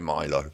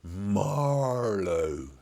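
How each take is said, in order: First: The name sounds like Milo. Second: The name sounds like Marlowe. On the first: The speaker calls it wrong. "I'm going Milo because of my voice" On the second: The speaker calls it right. "It's Mar Marlowe like that"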